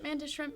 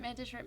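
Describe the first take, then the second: First: It is said slowly. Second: It is said fast.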